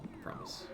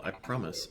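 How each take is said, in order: First: Whispered. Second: Said in the usual way. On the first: Shown as a demonstration. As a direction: whisper I promise without voice. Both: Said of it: "I promise I will".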